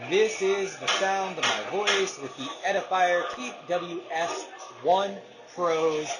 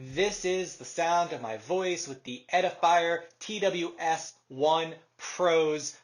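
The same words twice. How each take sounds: First: The voice is heard over ambient background noise. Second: The voice is heard without background noise.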